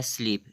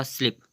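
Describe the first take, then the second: First: स्लीप with a long stretched ई; long ee in sleep. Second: स्लिप with a quick short इ; short i in slip. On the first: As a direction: say स्लीप, holding the long ई sound. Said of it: "इसे बोलेंगे स्लीप". (लंबी ई के साथ स्लीप) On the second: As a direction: clip the vowel short in स्लिप. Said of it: "अगर आपने बोला स्लिप". (छोटी इ के साथ स्लिप) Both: Shown as a demonstration.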